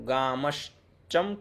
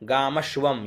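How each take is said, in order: First: The consonant after 'gamash' is a 'ch' sound. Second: The consonant after 'gamash' is a 'v' sound. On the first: The speaker calls it wrong. "गामश्चम क्यों कर दिया यहाँ?" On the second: The speaker calls it right. "ये वह है है ना, च नहीं"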